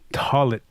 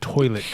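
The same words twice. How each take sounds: First: It is said with the parents' Oklahoma accent. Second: It is said with a general American accent.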